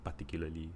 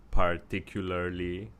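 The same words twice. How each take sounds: First: "particularly" quick, with no r's, "pa-tikyu-la-ly"; normal Singaporean way. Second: "particularly" slow, with both r's sounded; careful enunciation. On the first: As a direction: say "particularly" softly and r-less, Singaporean style. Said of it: "the way that I normally say particularly". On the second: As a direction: spell out each syllable of "particularly", par-tic-u-lar-ly. Careful take beside his usual one. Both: Shown as a demonstration.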